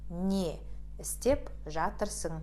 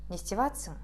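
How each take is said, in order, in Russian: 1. Каждое слово произносится полностью и отдельно. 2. Слова слиты вместе и сокращены. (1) "Опишем эту фразу вот так" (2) "первая фраза"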